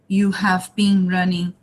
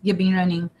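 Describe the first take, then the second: First: You have is said as two full words. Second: You have is shortened to a weak you've. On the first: "full form" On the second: "a very short form and weak form"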